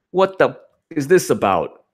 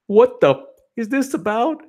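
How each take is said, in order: First: A hint of a whining fan; mild mock complaint. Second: Much higher mocking whine. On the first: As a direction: ask it in a lightly upset put-on tone. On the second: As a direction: whine it like a distraught fan. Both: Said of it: "then she goes".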